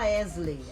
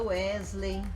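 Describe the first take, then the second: First: The name begins with a v sound. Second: The name begins with a w sound. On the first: The speaker calls it wrong. "A gente não fala" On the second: The speaker calls it right. "a gente fala"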